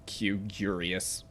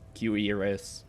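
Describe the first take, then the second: First: The word sounds like 'curious'. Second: The word does not sound like 'curious'. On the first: The speaker calls it wrong. "I always used to pronounce it like Q curious" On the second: The speaker calls it right. "I now know how to pronounce cuirass"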